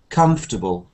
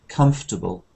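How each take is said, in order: No difference in how they are said.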